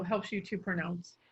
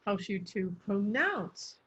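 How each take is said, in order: First: Said in the usual way. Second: Slow down and lean on "pronounce"; drawn-out "pronounce", its tone lifted then falling; emphasis on pronounce. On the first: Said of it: "instead of". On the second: Shown as a demonstration. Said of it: "if we want to emphasize the meaning".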